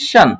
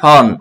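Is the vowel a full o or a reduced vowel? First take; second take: reduced; full o. First: The vowel is a short, reduced unstressed sound. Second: The vowel is a full, rounded o sound. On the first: The speaker calls it right. "এখানে হবে কি শান" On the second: The speaker calls it wrong. "যেমন বাংলার ক্ষেত্রে আমরা বলি শন"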